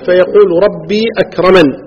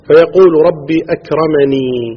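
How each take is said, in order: First: The last word ends without a final 'ee' vowel. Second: The last word ends with a long 'ee' vowel.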